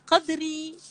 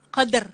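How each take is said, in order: First: The word ends with a short vowel after r. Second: The word stops sharply on the final r. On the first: The reader continues without stopping. "Bila tidak wakaf, dia tak ada masalah" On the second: The reader stops at this word. "Bila wakaf"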